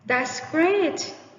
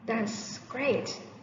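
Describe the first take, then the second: First: The voice sounds excited and lively. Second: The voice sounds hesitant and unconfident. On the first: The speaker is thrilled about it. "Sound really excited" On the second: The speaker is not confident about it. "The second tone doesn't sound confident"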